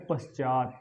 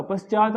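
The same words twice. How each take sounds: First: पश्चात stopped on the final t; पश्चात with no vowel after t; correct pronunciation. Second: पश्चात with a vowel after final t; पश्चात ending in an open "ta"; mistaken pronunciation. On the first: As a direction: say पश्चात as "pash-chaat". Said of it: "जो शुद्ध है वो होता है". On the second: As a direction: say पश्चात as "pash-chaa-ta". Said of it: "पश्चात नहीं होता". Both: Shown as a demonstration.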